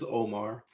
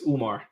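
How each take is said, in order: First: The name is said with an English pronunciation. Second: The name is said with an Arabic pronunciation. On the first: "In English is"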